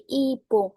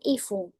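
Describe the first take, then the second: First: The middle consonant is a hard p sound. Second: The middle consonant is a soft f sound. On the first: The speaker calls it right. "dibaca sebagai ipung" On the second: The speaker calls it wrong. "bukan ifung"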